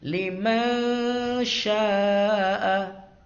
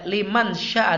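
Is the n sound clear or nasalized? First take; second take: nasalized; clear. First: The n sound is hidden and nasalized. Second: The n sound is pronounced clearly. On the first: The speaker calls it right. "Nunnya itu tidak dibaca jelas ya" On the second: The speaker calls it wrong. "Itu tidak dibaca liman syaa"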